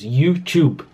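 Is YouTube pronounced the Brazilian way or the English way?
English. It is said with an English pronunciation. "Porque assim que se pronuncia em inglês, a palavra é em inglês"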